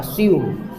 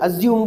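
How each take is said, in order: First: The middle consonant is a hissing 's' sound. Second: The middle consonant is a buzzing 'z' sound. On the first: The speaker calls it right. "स की sound है वहाँ पे" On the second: The speaker calls it wrong. "अज्यूम गलत होता है"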